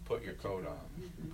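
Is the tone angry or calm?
calm. It is said in a calm, even tone. The speaker is simply repeating the request. "That's different than"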